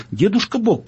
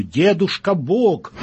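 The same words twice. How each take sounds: First: Quicker, higher-pitched plea; hasty little girl. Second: Slow, grand self-announcement, higher in pitch; booming God. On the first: Daughter steps in for her parents, hasty intervention. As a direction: cut in lightly as a daughter interceding. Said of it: "поскорее вмешалась девочка". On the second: Grandpa God names himself at the door, booming. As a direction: draw out the name like a mighty visitor. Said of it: "загрохотала за дверью". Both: A narrator's reading.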